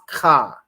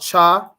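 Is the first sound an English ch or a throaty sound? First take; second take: throaty; English ch. First: It starts with a rough sound in the throat. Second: It starts with an English ch sound. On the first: The speaker calls it right. "it's more in your throat with it. It's more guttural" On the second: The speaker calls it wrong. "This one here is not cha"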